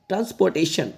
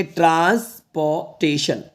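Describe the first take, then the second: First: Said in the usual way. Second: Syllable by syllable. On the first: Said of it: "इसको पढ़ेंगे". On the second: Shown as a demonstration. Teacher reading a big word for students, transportation in parts. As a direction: read transportation out in slow, separate parts. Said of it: "ऐसे तोड़ के पढ़".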